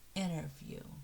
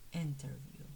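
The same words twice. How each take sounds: First: The T after the N is dropped. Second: The T after the N is clearly pronounced. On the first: "we normally don't stress the T after an N. So we say interview" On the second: "it's spelled as interview"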